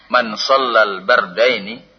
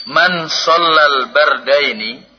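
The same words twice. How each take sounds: First: Said in the usual way. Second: Man rising, louder and slow; Man shallal bardaini stretched and lifted; emphatic recitation. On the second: Shown as a demonstration. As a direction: proclaim the hadith opening slowly.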